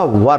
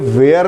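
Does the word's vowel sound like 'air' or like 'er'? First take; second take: er; air. First: The vowel sounds like 'er'. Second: The vowel sounds like 'air'. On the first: The speaker calls it right. "वर होता है" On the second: The speaker calls it wrong. "ये वेयर नहीं होता"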